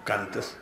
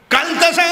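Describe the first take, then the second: First: Very low, very soft murmur; hushed telling. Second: High, forceful exclamation; sudden outcry. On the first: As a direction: say it under your breath. (খুব নিচু, আস্তে গলায়) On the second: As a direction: burst out with it to the crowd. (উঁচু গলায় জোরে) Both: Acted. Same word hushed, then cried out.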